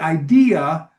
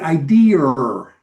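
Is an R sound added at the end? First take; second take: no; yes. First: It ends without an R sound. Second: An R sound is added, Massachusetts style.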